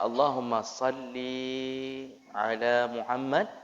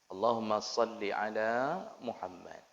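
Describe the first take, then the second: First: The final vowel of salli is lengthened. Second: The final vowel of salli is short. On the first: It addresses a female. The speaker calls it wrong. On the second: It addresses a male or unspecified subject. The speaker calls it right.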